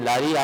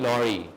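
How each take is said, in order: First: The first vowel is an open aa. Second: The first vowel is a rounded aw. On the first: The speaker calls it wrong. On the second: The speaker calls it right.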